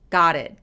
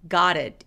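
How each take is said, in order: First: The t is a hard, separate t. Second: The t is a soft linked flap. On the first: The speaker calls it wrong. "이게 아니라" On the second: The speaker calls it right. "부드럽게 연결해서"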